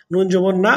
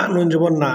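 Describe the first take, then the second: First: নুন জবর না with না lifted on a rising tune; rising first take. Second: নুন জবর না with the weight on নুন and the tune falling; falling second take. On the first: Teacher models the spelling for students, first take rising on না. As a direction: end on না with the voice going up, like a call. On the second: Teacher repeats the spelling for students, second take falling from নুন. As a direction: settle it down, leaning on নুন. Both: Shown as a demonstration. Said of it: "teacher models spelling twice".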